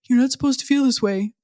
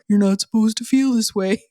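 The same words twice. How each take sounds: First: It is said in her ordinary voice. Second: It is said in a gloomy Eeyore voice.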